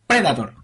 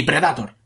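First: PREDATOR stressed on PRE, Spanish vowels; stress on first syllable. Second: PREDATOR stressed later, pre-da-TOR; stress moved off first syllable. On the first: Giving the listener the right version, PREDATOR stressed on PRE. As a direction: hit the PRE of PREDATOR, PRÉ-da-tor. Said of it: "tilde en la E". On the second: Rejecting another wrong version, PREDATOR with the stress late. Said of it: "No se dice ni Predator". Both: Shown as a demonstration.

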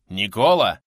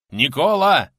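First: Loud call of a name. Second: Louder, higher cry of the name; urgent calling. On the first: Man shakes his fallen friend, calling out loudly. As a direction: call loudly to rouse him. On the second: Man shakes his unresponsive friend, calling urgently. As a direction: shout higher to bring him round. Louder second call to comrade. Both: A narrator's reading.

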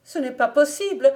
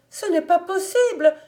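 First: Loud, higher cry of disbelief; shrieking denial. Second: Much higher and loud, the cry climbing into panic; shriller shrieking denial. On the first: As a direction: howl it out, refusing the death. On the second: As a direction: scream it again, even more desperate. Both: A narrator's reading. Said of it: "hurla par trois fois".

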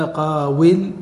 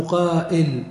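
First: "قاول" as qaa-wil, with a clear w; unchanged waw form. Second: "قائل" as qaa-'il, glottal stop before il; hamza form. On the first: Teacher giving the form not used, "قاول" with waw kept. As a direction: keep the waw sounded in "قاول". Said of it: "ولم يأتوا بالعين كما هي". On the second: Teacher quoting what Arabs said, "قائل" with hamza for waw. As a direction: put a clear hamza in "قائل". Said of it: "قالوا قائل". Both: Shown as a demonstration.

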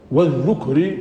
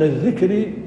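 First: والذكر said "wadh-dhukr", short u after dhal; والذكر with the first root letter voweled u; damma on the dhal. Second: الذكر said "adh-dhikr", short i after dhal; الذكر with the first root letter voweled i; kasra on the dhal. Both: Shown as a demonstration. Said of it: "بكسر الزال وبضمها".

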